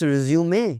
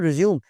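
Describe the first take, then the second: First: The word ends with an added final vowel. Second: The word ends on the final m sound. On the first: The speaker calls it right. "It's रिज़्यूमे" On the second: The speaker calls it wrong. "It's not रिज़्यूम"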